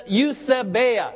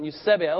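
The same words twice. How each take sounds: First: "eusebeia" slowly, syllable by syllable, weight drifting onto "bei"; mistaken emphasis. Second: "eusebeia" with the stress on "seb"; corrected emphasis. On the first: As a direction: sound out "eusebeia" slowly with the emphasis misplaced late. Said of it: "Sorry, the emphasis on eusebeia". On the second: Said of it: "the emphasis on eusebeia". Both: Shown as a demonstration.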